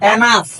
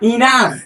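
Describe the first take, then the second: First: The first vowel sounds like 'eh'. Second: The first vowel sounds like 'ih'. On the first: The speaker calls it wrong. "এনাফ বললে এটা ভুল উচ্চারণ হয়ে যাবে" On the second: The speaker calls it right. "সঠিক উচ্চারণ হলো ইনাফ"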